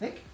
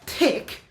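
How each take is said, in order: First: The word begins with a soft 'th' sound. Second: The word begins with a hard 't' sound. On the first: The speaker calls it right. "as in thick" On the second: The speaker calls it wrong. "so do not say tick"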